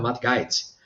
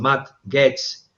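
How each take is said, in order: First: The surname is pronounced the German way. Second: The surname is pronounced the usual English way.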